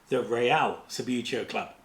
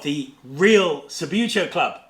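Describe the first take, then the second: First: The name is pronounced the continental European way. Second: The name is pronounced the plain English way.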